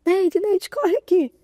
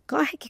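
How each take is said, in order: First: Excited high call across the room, louder; urgent call. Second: Said in the usual way. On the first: Retold or imitated. Secretary rushing in, calling Neide with a loud urgent call. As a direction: call her name urgently, rising.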